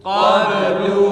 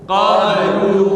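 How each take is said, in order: Both takes have the same delivery.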